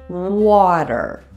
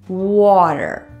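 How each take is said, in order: The two takes are said the same way.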